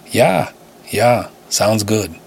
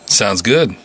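First: Put-on a light Russian accent on sounds good; lightly voiced Russian accent, relieved. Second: Said in the usual way. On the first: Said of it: "The accent felt like razor blades". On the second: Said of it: "Got it worked into the, uh, Mimiverse".

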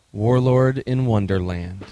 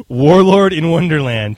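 First: Announcer voice. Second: Slow, loud echo of the title; announcer voice. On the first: Announcing the game title. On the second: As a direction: boom the title like a trailer. Host echoes title grandly. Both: Acted.

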